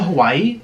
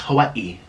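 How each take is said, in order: First: Said in the usual way. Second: Hawaii with a break before the final ee; native-style Hawaii. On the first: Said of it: "and it's pronounced Hawaii". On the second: Shown as a demonstration. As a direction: say Hawaii as ha-wai-ee, last syllable separate. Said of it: "it's pronounced Hawaii".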